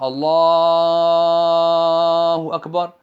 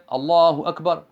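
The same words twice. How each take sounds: First: The phrase is said slowly. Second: The phrase is said quickly. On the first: "faire le premier takbir lentement" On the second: "le deuxième, il va le faire rapidement"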